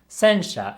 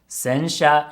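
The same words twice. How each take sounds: First: The pitch starts high, then stays low. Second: The pitch starts low, then stays high. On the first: "sensha is high, low, low" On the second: "Sensha is low, high, high"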